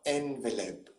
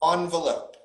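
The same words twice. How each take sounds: First: The first syllable sounds like 'en'. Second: The first syllable sounds like 'on'. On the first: The speaker calls it wrong. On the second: The speaker calls it right. "in American English it's on"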